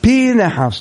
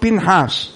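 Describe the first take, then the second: First: The name is read with the meteg and dagesh. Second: The name is read without the meteg and dagesh. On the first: The speaker calls it right. "לכן אומרים בתורה, פנחס ... יש שם מעמיד ודגש" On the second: The speaker calls it wrong. "לא פנחס"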